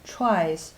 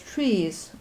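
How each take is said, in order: First: The vowel sounds like the word 'try'. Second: The vowel sounds like the word 'tree'. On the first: "some like tries" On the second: "some pronounce it as trees"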